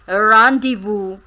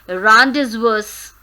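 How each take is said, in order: First: The Z and S are not pronounced. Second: The Z and S are pronounced. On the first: The speaker calls it right. "Z is silent and S is silent" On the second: The speaker calls it wrong. "It is not rendezvous"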